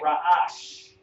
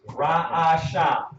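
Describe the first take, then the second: First: The word ends in a consonant sound. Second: The word ends in an added vowel sound. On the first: The speaker calls it right. "but you would say it Ra'ash" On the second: The speaker calls it wrong. "That's how you would spell it"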